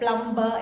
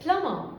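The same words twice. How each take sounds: First: The b sound is pronounced in the word. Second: The b sound is silent in the word. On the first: The speaker calls it wrong. "നമ്മൾ usual ആയിട്ട് പറയുന്നതാണ് അല്ലേ? ... But it's wrong" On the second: The speaker calls it right. "It's plumber"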